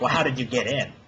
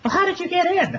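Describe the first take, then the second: First: Said in the usual way. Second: Very high, squeaky girly imitation; ditzy high-pitched question; mock stripper voice. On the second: Mocking the stripper asking how he got in, squeaky high.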